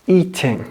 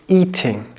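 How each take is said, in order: The two takes are said the same way.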